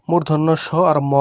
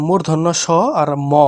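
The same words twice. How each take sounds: The two takes are said the same way.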